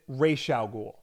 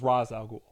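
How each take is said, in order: First: The first word sounds like 'raysh'. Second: The first word sounds like 'rahz'. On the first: This is how the animated series says it. "they pronounce it Ra's al Ghul" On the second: This is how the films say it. "up until the Nolan movies where it was Ra's al Ghul"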